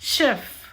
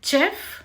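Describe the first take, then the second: First: It begins with a sh sound. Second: It begins with a ch sound. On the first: The speaker calls it right. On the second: The speaker calls it wrong. "చెఫ్ కాదు"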